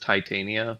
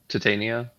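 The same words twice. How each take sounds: First: The first syllable sounds like 'tie', as in Titanic. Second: The first syllable sounds like 'tit'. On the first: "like Titanic" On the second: "I always said it with tit in the name"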